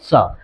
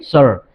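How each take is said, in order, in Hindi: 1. यह ब्रिटिश अंग्रेज़ी लहजे में कहा गया है। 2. यह अमेरिकन अंग्रेज़ी लहजे में कहा गया है। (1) "अगर आप ब्रिटिश इंग्लिश में इसको कहना चाहेंगे" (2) "अगर इसे अमेरिकन इंग्लिश में कहना चाहेंगे"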